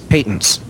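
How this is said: It is said the British way.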